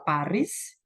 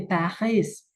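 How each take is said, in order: First: Paris with Indonesian vowels and a rolled r, pa-ris. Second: Paris with a French throaty r and no s, pa-hee. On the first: Teacher contrasts the old and native readings of Paris. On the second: Teacher gives the native French way to say Paris. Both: Shown as a demonstration. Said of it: "orang aslinya membacanya seperti itu".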